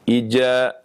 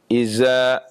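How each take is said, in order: First: The middle consonant is a j sound. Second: The middle consonant is a z sound. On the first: "berubah menjadi jim" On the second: "Atau berubah menjadi zai"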